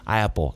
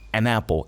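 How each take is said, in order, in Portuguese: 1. O artigo se funde com apple sem o n. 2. Um som de n liga o artigo a apple. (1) "Eu falo rápido, não mostra que eu estou falando esse A" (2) "Aí você sabe que eu estou falando uma"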